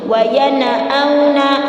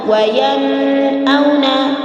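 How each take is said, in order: First: The n bounces with an added vowel. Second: The n sound is held and lengthened. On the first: "diqalqalahkan atau dipantulkan huruf nun sukunnya" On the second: "ditahan, tidak boleh. Itu adalah salah"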